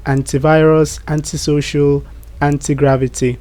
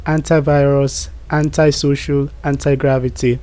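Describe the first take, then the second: First: "antivirus, antisocial, anti-gravity" with "anti" as AN-tee; British pronunciation. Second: "antivirus, antisocial, anti-gravity" with "anti" as AN-tie; American pronunciation. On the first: Teacher giving examples of the British way, British "AN-tee" pronunciation. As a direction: say each "anti" with an "ee" ending. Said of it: "the British way of saying this word". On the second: Teacher giving examples of the American way, American "AN-tie" pronunciation. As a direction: say each "anti" rhyming its end with "eye". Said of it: "The American way of saying this word".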